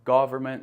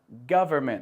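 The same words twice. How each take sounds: First: The first vowel differs from the one in 'love'. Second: The first vowel sounds like the one in 'love'. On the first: The speaker calls it wrong. "não government" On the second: The speaker calls it right. "É o mesmo O a propósito da palavra love ou above e cover"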